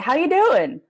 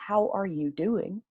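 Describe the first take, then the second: First: The word 'are' is dropped entirely. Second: Every word is said, including 'are'. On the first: "is how we actually say it" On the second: "that's the one in the real words"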